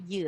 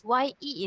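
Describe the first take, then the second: First: "ye" with a dull schwa, yuh; mistaken pronunciation. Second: "ye" with an open eh vowel, as in yes; correct pronunciation. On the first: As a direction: say "ye" wrongly as yuh. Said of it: "not ye". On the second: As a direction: say "ye" as yeh. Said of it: "Y E is ye". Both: Shown as a demonstration.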